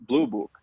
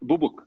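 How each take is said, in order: First: The words are said clearly, the L sound kept. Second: The words are blurred, the L sound dropped. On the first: "meant blue book" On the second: "he pronounced this Bubuk"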